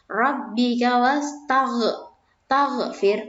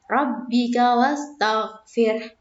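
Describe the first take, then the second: First: The gh sound is bounced, breaking the word. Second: The gh sound flows on smoothly, unbroken. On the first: The speaker calls it wrong. "anak-anak itu biasanya kalau membacanya seperti ini" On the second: The speaker calls it right. "Yang betul adalah"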